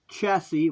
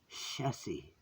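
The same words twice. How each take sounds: First: The word starts with a 'ch' sound. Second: The word starts without a 'ch' sound. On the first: The speaker calls it wrong. "Chassis with a ch" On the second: The speaker calls it right. "if you want to really say it correctly"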